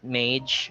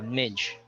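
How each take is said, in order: First: The syllable has an 'ay' vowel, like 'made'. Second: The syllable has a short 'ih' vowel, like 'bridge'. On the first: The speaker calls it wrong. "So it's not mage" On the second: The speaker calls it right. "but uh, midge"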